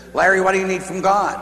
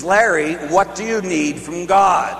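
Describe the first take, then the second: First: The nun asking Larry what he needs from God, a light insistent question; persistent nun. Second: Slower, pressing the name Larry; persistent repeat. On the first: The nun asks Larry at retreat, lightly insistent. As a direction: ask it kindly but insistently. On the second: The nun repeats her question to Larry, slower and pressing. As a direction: ask again, slower and more insistent. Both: Retold or imitated. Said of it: "she was a persistent type nun".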